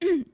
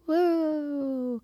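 First: It is said loudly, with lots of energy. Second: It is said flatly, with little energy.

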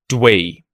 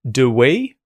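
First: It has one syllable with no schwa vowel. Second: It has two syllables with a weak schwa vowel. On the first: "you may not even hear the schwa sound and you'll just hear dwee" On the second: "it's turned into the schwa sound, do we"

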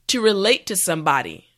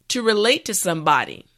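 The two takes are said the same way.

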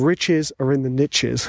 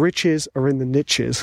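First: 'Niches' rhymes with 'riches', American style. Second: 'Niches' rhymes with 'riches', American style.

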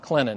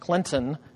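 First: The middle T sound is dropped. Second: The middle T sound is clearly pronounced. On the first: The speaker calls it wrong. "it's not Clinton" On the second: The speaker calls it right. "we do pronounce the T"

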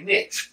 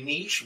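First: It is said the American way. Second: It is said the European way.

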